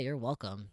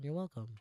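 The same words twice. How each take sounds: First: It sounds pointed and resentful, demanding gratitude. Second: It sounds light and casual, easygoing and friendly. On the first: The helper expects to be thanked for the favor. The speaker calls it wrong. "you better be fucking grateful I held this door open for you" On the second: The favor was no trouble at all. The speaker calls it right. "it's no big deal. This is no issue"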